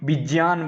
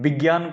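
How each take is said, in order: First: The conjunct is said with a j sound. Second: The conjunct is said without a j sound. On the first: "विज्ञान बोलते हैं" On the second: "विज्ञान को नहीं बोलते हो"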